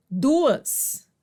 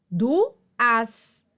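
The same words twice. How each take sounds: First: Said in the usual way. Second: "duas" broken in two, du-as; sílabas separadas. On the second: Shown as a demonstration. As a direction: pause between the two vowels of "duas". ("duas" separado em du-as) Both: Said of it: "duas vogais em sílabas separadas".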